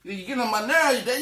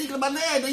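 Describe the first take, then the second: First: Put-on high child's complaint; whiny kid voice. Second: Put-on higher, more strained child's whine; whinier kid voice. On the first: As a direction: son complaining to his dad. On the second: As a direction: push the whine further up. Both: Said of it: "he's like".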